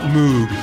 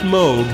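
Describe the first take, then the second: First: The vowel sounds like a cow's moo. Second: The vowel does not sound like a cow's moo. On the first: The speaker calls it wrong. "not Moog. What are you, an electronic cow?" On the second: The speaker calls it right. "it's pronounced Moog"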